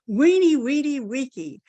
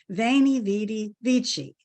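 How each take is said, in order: First: It is said in classical-style Latin with W sounds. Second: It is said in Italian-style church Latin.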